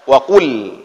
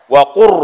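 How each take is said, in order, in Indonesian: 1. Bunyi l di akhir dibaca dengan jelas. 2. Bunyi l di akhir menyatu menjadi bunyi r. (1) "jangan lagi dibaca wa qul"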